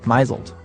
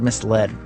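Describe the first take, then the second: First: It is said as my-zuld, rhyming with chiseled. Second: It is said as mis-led, with two parts. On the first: "who used to pronounce it misled" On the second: "Consider the word misled"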